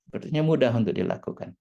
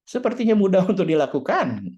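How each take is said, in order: First: Said in the usual way. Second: "Sepertinya" punched louder and a bit higher; emphatic. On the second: Shown as a demonstration. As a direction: stress "Sepertinya" as if it really were easy. (tekanan keras pada "Sepertinya")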